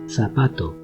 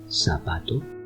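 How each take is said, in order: First: The first consonant sounds like English th. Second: The first consonant sounds like English s. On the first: "twice with a Spanish accent" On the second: "twice with a Latin American accent"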